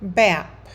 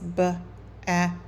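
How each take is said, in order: First: The word is said in one smooth piece. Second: The word is broken into separate sound parts. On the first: The reader can decode the word fluently. "A really strong first grade student could read this like this" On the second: The reader is still working out the sounds. "they may have to start by saying the sounds"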